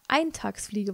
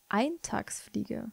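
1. Das Wort wird auf die normale Weise betont. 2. Das Wort wird auf eine seltsame Weise betont. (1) "Eintagsfliege wollte ich sagen" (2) "Das habe ich gerade ein bisschen komisch betont"

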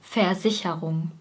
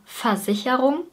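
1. Jede Silbe wird klar und voll ausgesprochen. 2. Die mittleren Silben sind reduziert und laufen ineinander. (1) "wenn wir besonders deutlich sprechen wollen" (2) "In der Umgangssprache sagen wir Versicherung"

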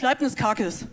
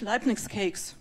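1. 'Cakes' wird Buchstabe für Buchstabe wie auf Deutsch gelesen. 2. 'Cakes' wird wie im Englischen gesprochen, einsilbig. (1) "aber lest das mal in Deutsch" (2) "Für uns ist das super"

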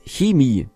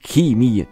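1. Das Wort beginnt mit einem weichen, zischenden Laut. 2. Das Wort beginnt mit einem harten K-Laut. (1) "das heißt Chemie, ja, wie die Schlange" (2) "Nicht Chemie. Sagst du auch Kev"

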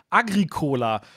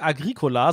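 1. Die Betonung liegt auf der Silbe co. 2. Die Betonung liegt auf der zweiten Silbe, gri. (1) "betonen das Wort falsch" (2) "Die sagen nicht Agricola"

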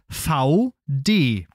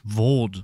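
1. Es wird zweisilbig gesprochen, Fau-De. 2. Es wird einsilbig im französischen Stil gesprochen. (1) "Aber auch hier ist es V D" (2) "Oder die sprechen es französisch aus"

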